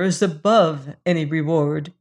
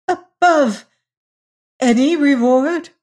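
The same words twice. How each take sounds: First: Said in the usual way. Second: High, loud incredulous question; stammered disbelief. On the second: A narrator's reading. Lady wondering if she heard Hagar aright, high stammered disbelief. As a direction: echo it as if you can't believe your ears. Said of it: "stammered the other, wondering if she heard aright".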